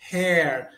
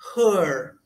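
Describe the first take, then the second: First: The vowel is an open 'e' sound. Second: The vowel is a central schwa sound. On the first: The speaker calls it wrong. "Tem muita gente que no início pronuncia hair, hair, com o E aberto" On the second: The speaker calls it right. "se pronuncia her, her. É o schwa em inglês"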